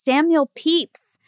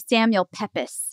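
First: Pepys is said with a long 'ee' vowel. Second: Pepys is said with a short 'e' vowel. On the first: The speaker calls it right. "actually, it's pronounced Samuel Pepys" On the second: The speaker calls it wrong. "we called him Samuel Pepys"

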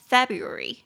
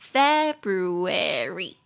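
First: The R sound in the second syllable is dropped. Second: The R sound in the second syllable is pronounced. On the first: "drop the R sound，他们会把那个音给去掉，所以会变成February" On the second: "这个字就是念作February"

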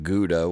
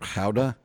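First: It is said with an American pronunciation. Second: It is said with a Dutch pronunciation. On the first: "for us Americans, the name of the town, we would pronounce it Gouda" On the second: "But in in Dutch, it's Gouda"

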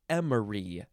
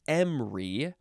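First: The word is said with three syllables. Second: The word is said with two syllables. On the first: "or three" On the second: "Two syllables"

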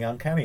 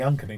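First: The stress falls on the usual syllable. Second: The stress falls on an unusual syllable. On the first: This is the standard title. "Rather than" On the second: This is the group's playful nickname. "It makes it shorter to say as well"

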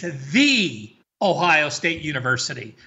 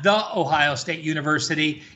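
First: The first word is said as a long 'thee'. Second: The first word is said as a short 'thuh'. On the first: The speaker calls it right. "Please say it properly" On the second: The speaker calls it wrong. "It's not"

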